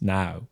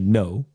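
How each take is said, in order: First: The vowel is rounded, sounding almost like now. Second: The vowel is a plain, unrounded o sound. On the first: "it's now" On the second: "you don't say no"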